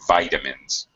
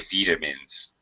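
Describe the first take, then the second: First: It is said with an American pronunciation. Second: It is said with a British pronunciation. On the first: "Americans say vitamins" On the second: "British say vitamins"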